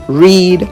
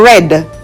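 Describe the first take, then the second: First: The vowel is long, like 'reed'. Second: The vowel is short, like 'red'. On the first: It is the present tense. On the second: It is the past tense.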